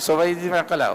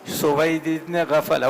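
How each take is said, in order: First: The last word starts with 'ain' and has 'q'. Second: The last word starts with 'gh' and has 'f'. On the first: The name is garbled, showing a careless transmitter. The speaker calls it wrong. "गैन की जगह ऐन और फा की जगह काफ" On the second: This is the narrator's real name. The speaker calls it right. "मशहूर रावी हैं सुवैद इब्न गफला"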